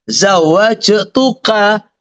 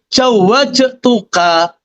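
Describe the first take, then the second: First: It starts with z and has j inside. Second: It starts with j and has j inside. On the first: The speaker calls it right. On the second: The speaker calls it wrong.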